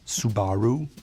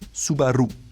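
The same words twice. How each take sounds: First: The stress is not on the middle syllable. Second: The stress is on the middle syllable. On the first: The speaker calls it wrong. "It's not Subaru" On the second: The speaker calls it right. "the emphasis is more in the middle"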